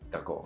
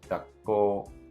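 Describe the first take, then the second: First: There is no held gap after 'ga'. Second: There is a short held gap after 'ga'. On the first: The speaker calls it wrong. "that's not the word" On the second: The speaker calls it right. "that little bit of a space after the ga"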